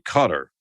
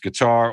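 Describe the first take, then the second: First: It is said the way locals say it. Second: It is said the usual American way.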